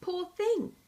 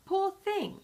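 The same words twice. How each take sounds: First: Mock pity, pitched much higher; hollow, put-on 'poor thing'; unconvincing sympathy. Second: Mock pity, pitched much higher; unconvincing sympathy. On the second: A narrator's reading. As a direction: fake 'poor thing' with no real feeling. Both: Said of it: "he added unconvincingly".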